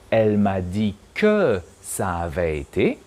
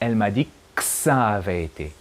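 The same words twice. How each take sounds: First: The word que is said in full. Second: The word que is reduced to k. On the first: This is the standard form. "in standard French, we should say" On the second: This is how it sounds in fast speech. "we only hear"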